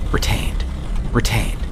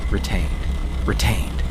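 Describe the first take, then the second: No difference in how they are said.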